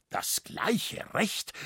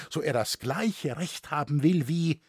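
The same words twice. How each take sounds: First: Slow, hissed disbelief on Recht; outraged father hissing back his daughter's words; beside himself. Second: Said in the usual way. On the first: A narrator's reading. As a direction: spit the words out, barely voiced, beside himself. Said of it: "rief Liskirchner außer sich".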